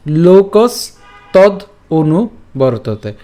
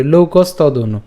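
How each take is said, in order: First: "লোকস তদ অনু" in separate slow pieces with pauses; broken up. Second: "লোকস তদ অনু" run together as one word; joined up. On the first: Teacher shows the split reading, broken up slowly. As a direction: stop after "লোকস" and after "তদ". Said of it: "এই ভাঙা অংশটুকু আপনারা এইভাবেই পাঠ". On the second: Teacher shows the joined option, run together. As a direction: link "লোকস" into "তদ অনু" without pausing. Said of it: "আমরা একসাথে উচ্চারণ করতে পারি". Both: Shown as a demonstration.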